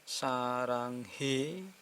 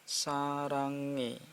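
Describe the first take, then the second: First: An h sound is heard before the last vowel. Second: No h sound is heard before the last vowel. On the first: The speaker calls it wrong. "Bukan saranghe" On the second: The speaker calls it right. "tak dianggap ini gabung ke sini"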